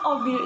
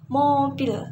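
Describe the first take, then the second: First: The word starts with a vowel, no m. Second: The word starts with a clear m sound. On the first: It is baby talk. The speaker calls it wrong. "obil itu sebenarnya nggak benar" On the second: It is the proper adult word. The speaker calls it right. "mengajarkan anak untuk berbicara dengan benar"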